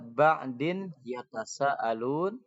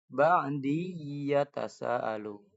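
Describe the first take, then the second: First: The n sound is clearly pronounced. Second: The n merges into y, held and nasalized.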